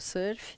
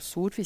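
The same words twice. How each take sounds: First: It is said with an English pronunciation. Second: It is said with a Portuguese pronunciation.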